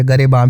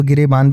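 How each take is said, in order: First: गरेबां with short a first and nasal ending; variant pronunciation. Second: गिरेबान with short i first and a full final n; variant pronunciation. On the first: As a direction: say गरेबां as "ga-re-baan", n unsounded. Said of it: "या गरेबां भी कहते हैं". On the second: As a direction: say गिरेबान as "gi-re-baan". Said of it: "गिरेबान भी कहते हैं". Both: Shown as a demonstration.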